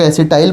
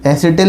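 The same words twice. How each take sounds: First: "एसिटाइल" ending in "-tile"; English pronunciation. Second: "एसिटिल" ending in a short "-til"; Hindi pronunciation. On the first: Teacher showing how some say it in English, "एसिटाइल" ending "-tile". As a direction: say "एसिटाइल" with a long "eye" sound in the last syllable. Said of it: "English में कुछ लोग उसको". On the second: Teacher reading out the Hindi term for students, "एसिटिल" ending "-til". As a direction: say "एसिटिल" with a short i in the last syllable. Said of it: "Hindi में". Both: Shown as a demonstration.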